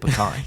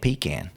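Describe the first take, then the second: First: The word has a standard, non-Southern pronunciation. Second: The word has a Southern regional pronunciation. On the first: "instead of pecan" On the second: "like in the South, you might have somebody saying pecan"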